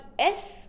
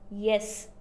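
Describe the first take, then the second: First: The word starts without a Y sound. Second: The word starts with a clear Y sound. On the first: The speaker calls it wrong. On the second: The speaker calls it right.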